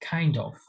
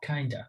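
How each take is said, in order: First: Both words are said fully and separately. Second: The words blend into one reduced word. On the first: "Kind plus of" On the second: "যেটা normally বলা হয় হচ্ছে kinda"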